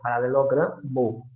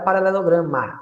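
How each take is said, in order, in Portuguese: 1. A palavra termina com a vogal 'o'. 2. A palavra termina com a vogal 'a'. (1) "é paralelogramo" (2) "Não é paralelograma"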